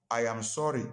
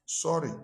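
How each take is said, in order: First: I AM SORRY said evenly, every word given; deliberate, complete I AM SORRY, pitch settled; full apology. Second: SORRY alone, short and higher-pitched; offhand sorry. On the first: Preacher shows the congregation a fuller apology, sincere. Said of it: "I am sorry" is not the same". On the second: Preacher shows the congregation the lesser apology, offhand. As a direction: toss out a brief, higher SORRY. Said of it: "let me put it this way". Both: Shown as a demonstration.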